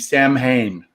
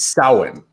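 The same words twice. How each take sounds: First: The word is pronounced the way it is spelled. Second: The word is pronounced the Celtic way. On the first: It names the rock band. The speaker calls it wrong. "There's a rock band uh, named Samhain" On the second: It names the god of death. The speaker calls it right. "the correct pronunciation of that, the I believe it's Celtic uh, pronunciation"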